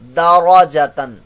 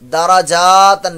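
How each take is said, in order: First: The vowel after jeem is kept short. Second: The vowel after jeem is stretched long. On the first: The speaker calls it right. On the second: The speaker calls it wrong.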